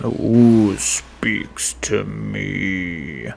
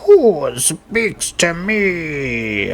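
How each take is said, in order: First: It is said in a deeper voice. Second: It is said in a higher voice.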